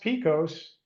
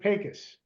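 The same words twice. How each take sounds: First: The name is pronounced the way it is spelled. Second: The name is pronounced the local West Texas way. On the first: "what looks like it's pronounced Pecos" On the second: "here they pronounce it Pecos"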